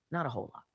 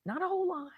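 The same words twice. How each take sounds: First: Low and soft, dry repeat of Not a whole lot. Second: Higher, stretched on whole, falling off; high drawn-out. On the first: Repeating her own answer to listeners in a low deadpan. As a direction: drop it low and quiet, deadpan. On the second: Answering her own question with a high drawn-out whole. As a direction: lift it up and lean on whole. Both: Shown as a demonstration.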